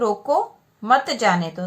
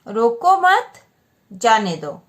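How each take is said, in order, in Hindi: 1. 'roko' के ठीक बाद विराम है। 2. 'mat' के ठीक बाद विराम है। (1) "यहाँ पे रोको के बाद विराम चिन्ह लगा है" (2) "मतलब जाने दो उनको, रोको मत"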